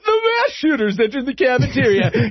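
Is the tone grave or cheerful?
cheerful. It is said in a light, cheerful tone. The event is treated as routine news. "But at other times, it'll be like, ... Now let's go to Bob for the weekly movie review"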